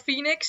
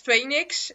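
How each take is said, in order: First: It is pronounced the English way. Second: It is pronounced the Dutch way. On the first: "instead of Phoenix" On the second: "in Dutch, it's Phoenix"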